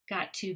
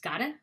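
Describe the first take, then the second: First: Both words are said fully and separately. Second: The words blend into one reduced word.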